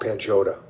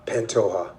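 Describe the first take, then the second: First: Pantoja said as "pan-JOE-ta"; mispronounced name. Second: Pantoja said as "pan-TOE-ha"; corrected name pronunciation. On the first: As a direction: stumble on Pantoja with an English j and a t. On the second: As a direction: repeat Pantoja carefully, j as an h. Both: Real, not acted. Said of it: "how you say his name?".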